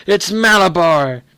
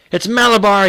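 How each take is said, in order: First: Slow, loud, eerie; powerful strange voice. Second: High, loud strange scream. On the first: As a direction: stretch it out, possessed and strange. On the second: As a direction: scream the horse's name possessed. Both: A narrator's reading. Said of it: "he screamed in a powerful, strange voice".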